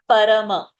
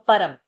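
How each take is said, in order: First: The word ends with a full extra vowel. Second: The word ends with a nasal, no vowel. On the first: The speaker calls it wrong. "Not parama. Ma is not full" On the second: The speaker calls it right. "Ma is in the anuswara. So param"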